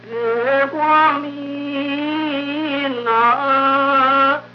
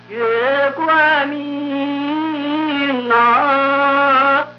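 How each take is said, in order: No difference in how they are said.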